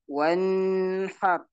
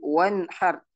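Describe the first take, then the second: First: The n sound is blended, not clearly pronounced. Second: The n sound is pronounced clearly and distinctly. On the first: The speaker calls it wrong. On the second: The speaker calls it right.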